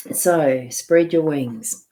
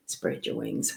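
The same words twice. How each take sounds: First: Slow, louder, firm delivery; emphatic. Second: Soft breathy whisper, lower. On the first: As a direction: proclaim it slowly and firmly. Repeats card message, then whispers. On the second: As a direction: whisper it to yourself. Repeats card message as whisper. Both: Shown as a demonstration.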